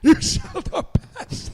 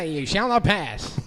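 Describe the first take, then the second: First: It sounds like the cowardly lion. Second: It sounds like an old-timey radio announcer.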